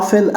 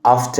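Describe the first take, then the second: First: "often" as "offen", no T; silent T. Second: "often" as "off-ten", T pronounced; sounded T. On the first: Teacher sums up both options, first "often" with silent T. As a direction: leave the T out of "often". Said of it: "ال T هنا silent". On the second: Teacher sums up both options, second "often" with audible T. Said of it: "تنطق ال T وتقولها". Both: Shown as a demonstration.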